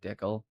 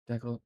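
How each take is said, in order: First: It is not said like the word decaf. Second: It is said like the word decaf. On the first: "it's also decal, decal, uh, particularly in Canada" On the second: "like decaf"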